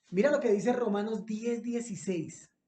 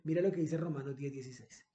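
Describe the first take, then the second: First: Announced to the room. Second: "Mira lo que dice Romanos diez dieciséis" rattled off fast and low; quick low aside. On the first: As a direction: announce the verse so all can find it. ("Mira lo que dice Romanos diez dieciséis" anunciado en voz alta) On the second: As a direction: toss off the reference quickly, half to yourself. ("Mira lo que dice Romanos diez dieciséis" dicho rápido y bajo) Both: Shown as a demonstration.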